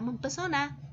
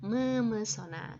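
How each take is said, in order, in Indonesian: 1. Ada bunyi p setelah 'mem'. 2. Tidak ada bunyi p setelah 'mem'. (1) "jangan lagi menyebutkan kata mempesona" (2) "tetapi memesona"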